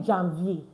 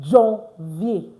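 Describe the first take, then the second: First: The first vowel sounds like English 'an'. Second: The first vowel sounds like nasal 'on'. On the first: The speaker calls it wrong. "So do you say Jan" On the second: The speaker calls it right. "A N is pronounced on"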